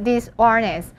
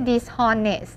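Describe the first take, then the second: First: Dishonest with a silent h, dis-ON-est. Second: Dishonest with the h pronounced, dis-HON-est; sounded H. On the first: Teacher showing students how to read it, silent H in dishonest. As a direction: say "dishonest" as dis-onest, no h sound. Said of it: "ให้อ่านว่า dishonest". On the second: Teacher showing students the reading to avoid, sounded H in dishonest. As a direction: say "dishonest" with a clear h before "on". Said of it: "ไม่ใช่ dishonest". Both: Shown as a demonstration.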